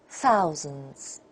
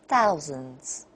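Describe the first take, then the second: The two takes are said the same way.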